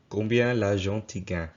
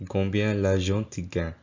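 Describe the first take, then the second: First: The pronoun for 'you' sounds like 'ti'. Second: The same.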